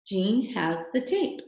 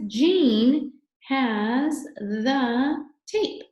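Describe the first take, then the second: First: Said in the usual way. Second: "Jean has the tape" very slow and drawn out, word by word; teacher sounding out a sentence slowly; slow model reading. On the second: Shown as a demonstration. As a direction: read each word loud, high and stretched, with gaps. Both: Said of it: "It says".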